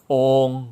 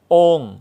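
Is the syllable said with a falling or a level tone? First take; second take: level; falling. First: The syllable carries the level saman tone. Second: The syllable carries the falling tho tone. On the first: "ต่อไปเสียงวรรณยุกต์สามัญ" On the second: "นี่คือเสียงโทนะครับสระโอนาสิกเสียงวรรณยุกต์โท"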